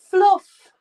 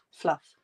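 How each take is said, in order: First: Loud, high attempt at a Scottish "Fluff"; Scottish accent. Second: Said in the usual way. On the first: Shown as a demonstration. Woman trying Scottish for Ange, loud mock Scottish accent. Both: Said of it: "Can't say it in a Scottish accent".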